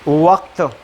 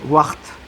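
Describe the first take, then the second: First: The consonant before the t is a q sound. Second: The consonant before the t is a kh sound. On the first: "लिखा जाता काफ से है" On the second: "बोला जाता है ये खे से"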